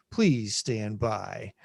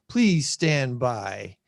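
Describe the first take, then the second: First: Slow low please stand by; drawn-out mock broadcast announcement; announcer voice. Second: Slow mock announcer please stand by; drawn-out technical difficulties announcement. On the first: Repeated announcer filler. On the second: Announcer-style filler while fixing screen.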